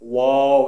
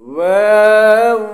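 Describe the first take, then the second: First: It is said thick, with wide rounded lips. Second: It is said small and light, without thickness. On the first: The speaker calls it wrong. "ঠোঁটটা যদি বড় হয় এরকম, ... এরকম যেন না হয়" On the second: The speaker calls it right. "ছোট হয়ে ওয়াও"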